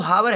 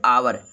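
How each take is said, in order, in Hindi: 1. इस शब्द की शुरुआत 'h' ध्वनि से होती है। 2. इस शब्द की शुरुआत स्वर ध्वनि से होती है। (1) "लिखा तो हावर है" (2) "लेकिन इसको पढ़ेंगे आवर"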